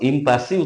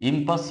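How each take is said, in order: First: The word ends with an added vowel sound. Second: The word ends on a consonant sound. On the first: The speaker calls it wrong. "ইম্পাসি উচ্চারণ নয়" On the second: The speaker calls it right. "ওটা ইম্পাস"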